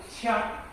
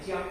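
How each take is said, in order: First: The syllable begins with a q sound. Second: The syllable begins with a j sound. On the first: It means to invite someone to drink. The speaker calls it right. "这个枪就是请的意思" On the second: It means to offer something up. The speaker calls it wrong. "你如果把这个枪念成将，理解为进献的话"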